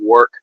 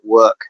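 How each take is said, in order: First: Said in the usual way. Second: "work" with an E-like vowel instead of O; Aussie-accented "work", vowel shifted toward E; Australian vowel. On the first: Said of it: "work has an E instead of an O". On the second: Shown as a demonstration. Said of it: "almost like work has an E instead of an O".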